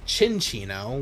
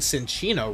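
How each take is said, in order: First: The name begins with a "ch" sound. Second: The name begins with an "s" sound. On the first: The speaker calls it right. "which I guess makes sense because it's a chinchilla" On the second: The speaker calls it wrong. "I've been saying Cinchino wrong this entire time"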